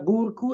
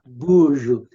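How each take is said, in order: First: The middle consonant is a hard k sound. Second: The middle consonant is a soft j sound. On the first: The speaker calls it wrong. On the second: The speaker calls it right.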